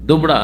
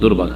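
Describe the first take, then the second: First: The r sound comes after the b. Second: The r sound comes before the b. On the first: This is the regional form. "আগে পরে করে দেয় দুবরা" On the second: This is the standard form. "শুদ্ধ দুর্বা ঘাস"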